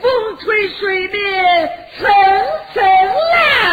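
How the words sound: The tune is lifted up at the end.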